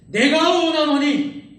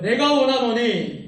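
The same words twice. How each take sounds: First: It is said forcefully, with vivid conviction. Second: It is said plainly, without much feeling.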